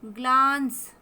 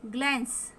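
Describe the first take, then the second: First: "ग्लांस" loud, with the aa drawn out; long aa. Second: Said in the usual way. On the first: Shown as a demonstration. Teacher showing the vowel must be pulled long, stretched aa. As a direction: lengthen the vowel in "ग्लांस": glaans. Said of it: "थोड़ा लंबा खींच के बोलेंगे".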